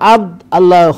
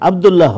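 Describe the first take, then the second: First: It is said as two separate words. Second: It is said as one joined word. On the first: The speaker calls it wrong. "আব্দ আল্লাহ হবে না" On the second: The speaker calls it right. "আব্দুল্লাহ হবে"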